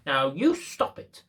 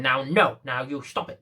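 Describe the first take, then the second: First: Slow, teasing, rising "Now you stop it"; playful mock scolding. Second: Lightly voiced old lady, a touch louder; mock old lady. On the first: Shown as a demonstration. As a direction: say it like you're playing with a toy. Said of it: "What's my voice saying there?". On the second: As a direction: scold the dog in a fussy granny voice. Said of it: "the old lady's going".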